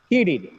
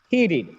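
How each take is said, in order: No difference in how they are said.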